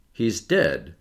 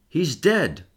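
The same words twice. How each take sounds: First: Said in the usual way. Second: Higher-pitched, shaken announcement; agitated. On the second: A narrator's reading. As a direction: break bad news with restrained agitation. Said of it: "his voice strangely agitated".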